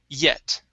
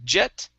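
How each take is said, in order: First: The word begins with a Y sound. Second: The word begins with a J sound. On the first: The speaker calls it right. "it's ye, yet" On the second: The speaker calls it wrong. "Instead of jet"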